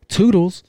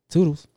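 First: High, loud singsong goodbye; loud toodles. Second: Loud, higher teasing goodbye; echoed toodles. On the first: Retold or imitated. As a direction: sing it out as a mocking farewell. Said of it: "He said it kind of loud". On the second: Pretend. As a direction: toss it off cheekily. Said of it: "own echo of robber's sign-off".

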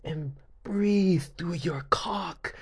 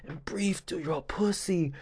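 First: Mock guide. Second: Whispered, unvoiced mock guide. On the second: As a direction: breathe it out like a secret. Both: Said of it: "talking about".

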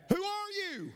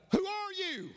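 First: Very high mimicked call; echoed scream. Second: Very high, falling call; acted scream. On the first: Unseen voice answering the boy, high echoing call. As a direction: send the same high holler back. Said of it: "the voice came back". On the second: Boy questioning the unseen voice, acted high scream. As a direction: holler it high across the mountains. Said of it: "he screamed out".

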